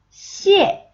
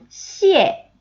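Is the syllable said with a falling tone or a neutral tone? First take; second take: falling; falling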